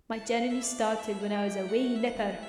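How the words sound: It is read in a put-on Scottish accent.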